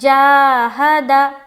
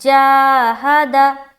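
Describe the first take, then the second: First: The final syllable is said short and quick. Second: The final syllable is said short and quick.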